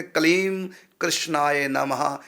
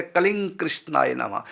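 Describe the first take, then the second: First: कलीम closed on m, then कृष्णाय नमः apart; words pronounced separately. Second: कलिंग with ng running into कृष्णाय नमः; words joined together. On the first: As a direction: slowly separate कलीम from कृष्णाय with lips shut on m. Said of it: "जब अलग-अलग शब्द हम बोलेंगे". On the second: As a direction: join कलिंग to कृष्णाय, lips never closing. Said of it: "यदि हम जोड़ के बोलेंगे". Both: Shown as a demonstration.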